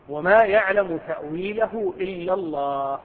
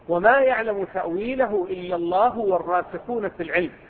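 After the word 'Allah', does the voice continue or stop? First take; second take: stop; continue. First: The voice stops completely after the word Allah. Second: The voice runs on after Allah without stopping. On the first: Only God knows its interpretation. "قراءة الوقف ... تمت الجملة" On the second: Those firm in knowledge also know its interpretation. "قراءة الوصف"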